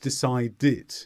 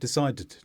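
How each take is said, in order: First: The ending is said with an extra vowel sound. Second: The ending is said with no extra vowel sound. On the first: The speaker calls it right. "when you have a T or a D before the ed, then we do need that vowel sound" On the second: The speaker calls it wrong. "It's not decided"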